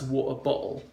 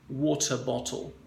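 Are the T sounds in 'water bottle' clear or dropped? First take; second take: dropped; clear. First: The T sounds are skipped over and dropped. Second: The T sounds are pronounced clearly and strongly. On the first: "the Cockney accent ... They would skip out the letter T" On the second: "it's got a strong letter T"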